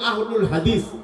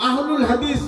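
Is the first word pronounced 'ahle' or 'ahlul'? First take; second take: ahlul; ahlul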